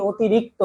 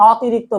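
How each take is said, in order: First: অতিরিক্ত begun with round "o"; rounded "o" start. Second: অতিরিক্ত begun with open "aw"; open "aw" start. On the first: Teacher answering how we say it, অতিরিক্ত with round "o". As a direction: say অতিরিক্ত as "otirikto". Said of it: "বলি কি?". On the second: Teacher showing what we don't say, অতিরিক্ত with open "aw". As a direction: say অতিরিক্ত as "awtirikto". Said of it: "আমরা বলি না অতিরিক্ত". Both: Shown as a demonstration.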